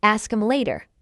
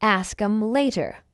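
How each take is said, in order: First: Quick, linked "Ask 'em later"; faster. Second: Slow, measured "Ask 'em later"; slow model. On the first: Teacher tells learners now faster, fast. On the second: Teacher models it before asking for faster, slowly. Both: Shown as a demonstration.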